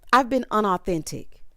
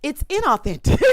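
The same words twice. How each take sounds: First: Unauthentic said with un-, as Bria said it; quoting the wrong word. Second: Inauthentic said with in-, stressed and a touch louder; correcting the word. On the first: Retold or imitated. Recapper quotes Bria's "unauthentic" with un-. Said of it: "Bria says". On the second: Shown as a demonstration. Recapper corrects Bria's word, inauthentic with in-. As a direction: give "inauthentic" its proper in- start. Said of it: "that's the issue right there".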